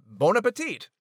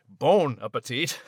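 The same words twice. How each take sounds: First: French imitation. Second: Scottish imitation. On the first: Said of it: "as Liz would say". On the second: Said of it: "as Max would say".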